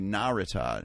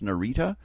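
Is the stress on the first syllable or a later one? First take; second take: first; later. First: The stress is on the first syllable. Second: The stress is on a later syllable. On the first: The speaker calls it right. "when pronounced correctly, accents on the first syllable" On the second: The speaker calls it wrong. "which I've always pronounced Narita"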